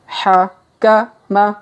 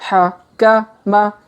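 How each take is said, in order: No difference in how they are said.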